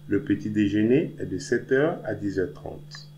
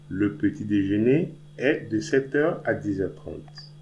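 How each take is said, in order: First: It is said at normal speed. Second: It is said slowly.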